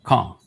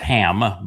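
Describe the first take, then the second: First: It begins with a rough, throaty sound. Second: It begins with a plain, soft h sound.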